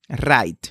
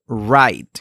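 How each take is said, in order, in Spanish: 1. La R es vibrante, con la punta de la lengua en el paladar. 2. La R es una R suave, tipo inglesa.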